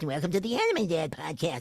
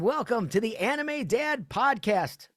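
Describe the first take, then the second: First: It is said in an exaggerated, put-on silly voice. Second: It is said in his own natural voice. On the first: The speaker calls it wrong. "I can do many different voices" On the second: The speaker calls it right. "My character voices sound like me"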